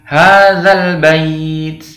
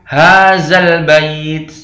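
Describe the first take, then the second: First: The first word has a soft 'dh' sound. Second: The first word has a 'z' sound. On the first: The speaker calls it right. "Ini the, bukan za" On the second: The speaker calls it wrong. "bukan hazal bait"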